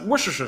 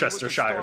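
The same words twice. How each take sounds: First: The word is mumbled quickly. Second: The word is said slowly and carefully. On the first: The speaker calls it wrong. "mumble my way through it or just say it really fast" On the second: The speaker calls it right. "now I'm just gonna be like, oh, it's"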